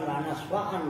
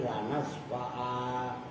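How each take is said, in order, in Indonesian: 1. Kata ini diakhiri dengan bunyi n. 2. Kata ini diakhiri dengan vokal a panjang. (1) "itu bukan lanas fa'an" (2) "tapi lanas fa'a"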